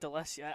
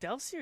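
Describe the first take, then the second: First: An extra vowel is inserted between L and S. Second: The L runs straight into the S sound. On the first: The speaker calls it wrong. "putting vowels in where there isn't a vowel" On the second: The speaker calls it right. "I'm one hundred percent sure it's Delsea"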